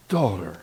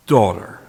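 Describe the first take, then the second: First: Soft echoed word. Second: Said in the usual way. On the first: Shown as a demonstration. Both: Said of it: "he calls the woman and the young girl".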